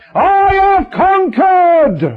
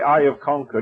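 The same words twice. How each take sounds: First: It is shouted at the top of the voice. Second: It is said calmly at normal volume. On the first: A triumphant proclamation like a herald's. The speaker calls it right. "He really shouted it out like a herald at the top of his voice" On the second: A plain, unremarkable statement. The speaker calls it wrong. "He just didn't say"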